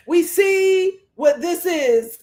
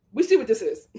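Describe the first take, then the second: First: We stressed, slow and louder; slow pointed emphasis on We; drawn-out accusing We. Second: Said in the usual way. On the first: Shown as a demonstration.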